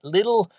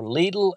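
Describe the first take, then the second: First: The name is said with an English-style pronunciation. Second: The name is said with a Spanish-style pronunciation.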